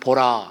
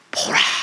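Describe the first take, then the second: First: It is said plainly, without feeling. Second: It is said as an excited exclamation.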